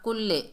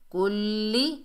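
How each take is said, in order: First: The word ends with an 'ay' vowel. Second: The word ends with an 'ee' vowel. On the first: The speaker calls it wrong. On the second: The speaker calls it right.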